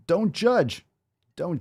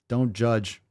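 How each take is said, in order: First: "Don't judge" jumped up high, sing-song; mocking high don't judge. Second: Said in the usual way. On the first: Shown as a demonstration. Coach mocking the viewer's plea, high sing-song. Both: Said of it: "repeated don't judge".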